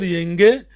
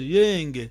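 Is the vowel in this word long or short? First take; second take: short; long. First: The vowel is short, marked only by tone. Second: The vowel is held long. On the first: It means 'and you'. "só a tonalidade quer dizer que e você" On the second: It means 'peace'. "a vogal longa é mesmo paz"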